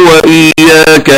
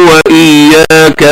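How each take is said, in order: The two takes are said the same way.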